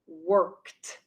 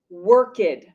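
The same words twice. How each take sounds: First: The word is said as one syllable. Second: The ending is said as an extra syllable. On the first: The speaker calls it right. "The pronunciation is worked" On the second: The speaker calls it wrong. "It is incorrect to say worked"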